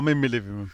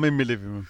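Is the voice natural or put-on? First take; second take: natural; natural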